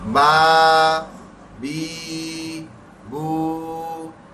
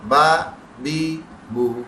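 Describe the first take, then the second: First: The vowels are drawn out long. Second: The vowels are short. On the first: "सबको दो दो हर खींच देंगे।" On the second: "जहन में लाएं आम हरकत।"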